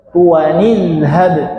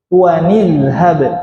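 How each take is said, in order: No difference in how they are said.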